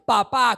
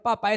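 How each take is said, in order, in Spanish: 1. El acento está en la última sílaba. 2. El acento está en la primera sílaba. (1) "con acento en la A" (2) "no es papá"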